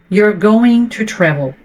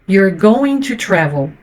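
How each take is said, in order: No difference in how they are said.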